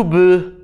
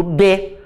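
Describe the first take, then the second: First: B as a bare "buh", no real vowel; bare consonant B. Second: B pronounced as a clear "bê"; B with vowel support. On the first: Teacher showing students what one doesn't say, bare consonant B. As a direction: say B as just the lip sound, without the E. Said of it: "Eu não digo B". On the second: Teacher showing how the letter is really said, B as "bê". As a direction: say B with a full E vowel after it. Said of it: "eu digo B". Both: Shown as a demonstration.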